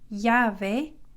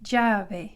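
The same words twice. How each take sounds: First: It begins with a Y sound. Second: It begins with a J-like sound. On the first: "pronounced like a Y" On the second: "in some countries it's pronounced more like a j"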